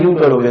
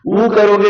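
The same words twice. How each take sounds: First: यू said as "yoo" with a y; यू sounded as y plus oo. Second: उ said as plain "oo"; उ sounded as a pure vowel. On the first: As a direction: contrast यू, starting on a y glide. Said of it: "या यू मानोगे". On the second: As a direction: contrast उ, a bare vowel with no y. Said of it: "इसको अगर आप उ मानोगे". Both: Shown as a demonstration.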